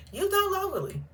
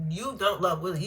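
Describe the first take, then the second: First: "don't" pitched higher and hit hard; stress on DON'T. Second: Said in the usual way. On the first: Shown as a demonstration. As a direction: lean on "don't" in You don't love Willie. Telling off MJ repeated.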